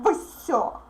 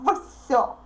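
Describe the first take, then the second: The two takes are said the same way.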